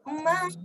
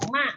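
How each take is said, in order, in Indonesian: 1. Vokalnya ditahan paling lama. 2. Vokalnya ditahan sangat sebentar. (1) "Lebih panjang lagi" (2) "satu huruf"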